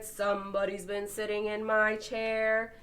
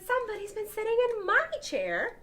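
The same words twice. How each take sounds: First: It is said in a deep, big voice. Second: It is said in a medium-pitched voice.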